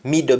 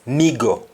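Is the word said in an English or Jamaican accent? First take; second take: English; Jamaican. First: It is said in a standard English accent. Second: It is said in a Jamaican accent. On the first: "In English we say middle" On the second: "Jamaican, middle becomes migo"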